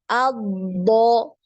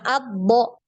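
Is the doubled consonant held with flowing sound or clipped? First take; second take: flowing; clipped. First: The doubled consonant is held with flowing sound. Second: The doubled consonant is clipped without flowing sound. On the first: The speaker calls it right. "harus dialirkan suaranya" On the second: The speaker calls it wrong. "bukan cuma albo"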